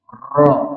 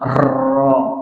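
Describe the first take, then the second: First: The r is trilled lightly and briefly. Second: The r is trilled heavily and long. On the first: The speaker calls it right. "getarannya tuh enggak terlalu berlebihan" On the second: The speaker calls it wrong. "Jadi bukan ro"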